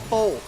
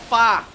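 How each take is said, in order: First: The word rhymes with 'foe'. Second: The word rhymes with 'far'. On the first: The speaker calls it wrong. "It's not called Pho" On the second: The speaker calls it right. "It's called Fa"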